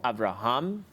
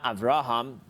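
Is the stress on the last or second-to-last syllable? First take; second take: last; second-to-last. First: The stress is on the last syllable. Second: The stress is on the second-to-last syllable. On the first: The speaker calls it right. "most words on the last syllable" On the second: The speaker calls it wrong. "it's not Avraham. It's not on the ra"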